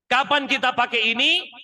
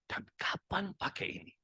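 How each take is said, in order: First: Loud and higher; full voice. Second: Soft persuasive whisper. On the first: Trainer shows the full vocal voice to managers, loud and high. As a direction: belt it out in full voice. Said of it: "vokal full". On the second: Trainer shows the persuasive voice to managers, whispered. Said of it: "persuasive voice". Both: Shown as a demonstration.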